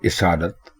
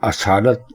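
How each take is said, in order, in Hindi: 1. पहला स्वर छोटा 'i' है। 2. पहला स्वर खुला 'a' है। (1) "इसालत दुरुस्त है" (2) "असालत गलत है"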